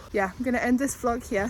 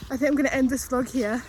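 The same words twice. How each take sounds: First: Said in the usual way. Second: Gasping between phrases, winded; out of breath. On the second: Real, not acted. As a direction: push the words out while still panting. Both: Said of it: "Sorry, I'm so out of breath".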